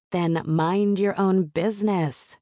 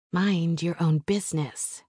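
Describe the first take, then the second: First: Raised, higher voice, stretched out; yelling back. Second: Said in the usual way. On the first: A narrator's reading. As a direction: call it back slowly across the room. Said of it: "I yell back". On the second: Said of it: "I say to Johnny".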